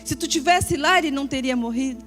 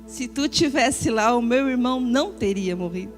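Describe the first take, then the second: First: It sounds accusing and demanding. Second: It sounds sad and pouring out grief.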